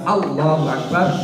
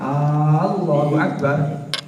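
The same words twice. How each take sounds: First: The first vowel of Allah is short. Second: The first vowel of Allah is drawn out long. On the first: It declares that God is the Greatest. The speaker calls it right. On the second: It asks whether God is the Greatest. The speaker calls it wrong.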